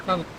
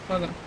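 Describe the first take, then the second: No difference in how they are said.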